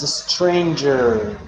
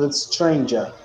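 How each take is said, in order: First: The end of the word is fully pronounced. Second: The end of the word is cut short. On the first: The speaker calls it right. "It's a stranger" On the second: The speaker calls it wrong. "It's not a stranger. you don't finish the word"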